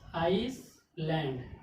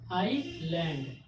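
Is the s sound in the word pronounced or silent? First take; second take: pronounced; silent. First: The s sound is clearly pronounced. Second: The s sound is not pronounced. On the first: The speaker calls it wrong. "अगर rules ना पता हो तो इसको पढ़ा जाएगा आइसलैंड। ... Wrong है" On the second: The speaker calls it right. "एस silent होगा"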